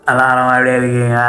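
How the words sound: It is said with subtle pressed emphasis.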